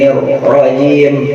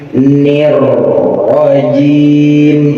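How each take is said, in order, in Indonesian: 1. Bunyi r terputus tiba-tiba. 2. Bunyi r mengalir terus, pelan-pelan. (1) "Contoh putus gimana bang?" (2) "Dipelanin lagi. ... itu namanya istimror. Rohnya mengalir"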